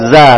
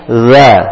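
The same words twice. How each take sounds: First: The consonant is a plain z, tongue behind teeth. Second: The consonant is th-like, tongue tip between teeth. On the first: The speaker calls it wrong. "za bukan za" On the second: The speaker calls it right. "tapi za"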